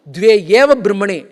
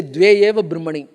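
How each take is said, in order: First: Eva in Dve eva Brahmani said loud and falling; stress on eva. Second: Dve said loud with a falling tune; stress on Dve. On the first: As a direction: lean hard on eva. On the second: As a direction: press on Dve. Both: Shown as a demonstration. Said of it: "that emphasis is added to Dve".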